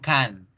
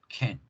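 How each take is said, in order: First: The vowel is a full, open 'ah'. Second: The vowel is a weak, reduced 'uh'. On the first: The speaker calls it wrong. "No digo can, no abro la boca y no digo ah" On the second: The speaker calls it right. "digo uh"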